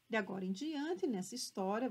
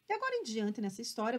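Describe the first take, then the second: First: It is read at a slower pace. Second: It is read at a faster pace.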